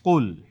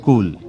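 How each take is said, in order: First: কুল with thick deep back-of-tongue k; heavy Qaf in কুল. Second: কুল with a light thin k; thin Kaf in কুল. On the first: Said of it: "কফ লাম পেশ কি হবে?". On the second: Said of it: "আর কাফ লাম পেশ?". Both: Shown as a demonstration.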